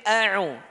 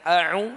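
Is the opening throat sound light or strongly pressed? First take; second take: pressed; light. First: The opening sound is strongly pressed in the throat. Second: The opening sound is light, like a glottal stop. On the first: The speaker calls it right. "Tapi a'u" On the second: The speaker calls it wrong. "ini kurang ditekan. Seperti Hamzah"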